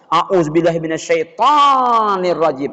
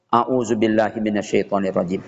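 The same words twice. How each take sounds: First: The phrase is said loudly and forcefully. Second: The phrase is said quietly and slowly. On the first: The other person is being called a devil. The speaker calls it wrong. "kita baca a'udzubillah tuh keras-keras" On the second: The anger is being calmed. The speaker calls it right. "membacanya pelan-pelan aja sambil menundukkan kepala"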